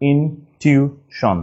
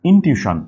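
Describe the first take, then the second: First: Slow "intuition" in separate pieces; syllable by syllable. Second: Said in the usual way. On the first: Shown as a demonstration. Teacher dictating for writing, "intuition" slowly broken up. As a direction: split "intuition" with pauses between syllables. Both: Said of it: "just একটু ভেঙে নিব".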